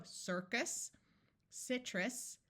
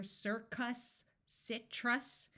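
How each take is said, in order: First: Circus and citrus with a muffled second vowel; unstressed endings of "circus" and "citrus" reduced toward short I; muffled schwa. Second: Circus and citrus with a full "uh" in the second syllable; over-clear "cuss" and "truss" endings on "circus, citrus"; clear short U. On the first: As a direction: say "circus, citrus" naturally, last vowels blurred. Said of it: "may have sounded muffled". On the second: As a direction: say "circus, citrus" with both vowels fully sounded. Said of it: "it was not a clear". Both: Shown as a demonstration.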